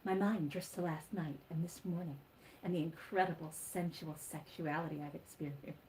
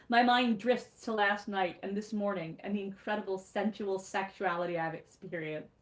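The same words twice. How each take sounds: First: It is read in an imitated character voice. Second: It is read in the reader's natural voice.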